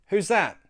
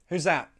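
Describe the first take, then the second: Both takes have the same delivery.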